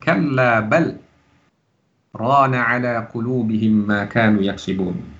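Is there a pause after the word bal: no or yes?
yes. There is a brief pause after bal. "boleh kita berhenti di bal"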